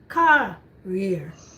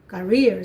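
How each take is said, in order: First: The stress is on the first syllable. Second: The stress is on the second syllable. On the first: It refers to something carried in the hands. "So you emphasize the ka" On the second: It refers to work or a profession. "you put the emphasis in rear. So the ka is not, try not to sound it too much"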